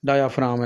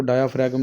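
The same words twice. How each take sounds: First: डायाफ्राम said "daya-fraam", silent g; correct pronunciation. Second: डायाफ्राम misread as "dia-frag-um", g sounded; mispronunciation demo. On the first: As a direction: say डायाफ्राम with a long aa and no g. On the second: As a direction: say डायाफ्राम wrongly, with a hard g before the m. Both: Shown as a demonstration. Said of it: "इसको डायाफ्राम नहीं पढ़ना".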